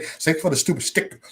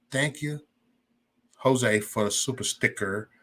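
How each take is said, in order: First: "super" slips into "stupid"; tongue-tied. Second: Said in the usual way. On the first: Real, not acted. Streamer thanks Jose for a sticker, tongue-tied. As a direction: fumble the word "super" as "stupid". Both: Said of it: "I can't even pronounce the word".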